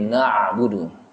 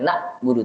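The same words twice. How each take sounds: First: The 'ain sound is clearly articulated. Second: The 'ain sound is weak or missing. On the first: The speaker calls it right. "tapi na'budu, karena di ain" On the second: The speaker calls it wrong.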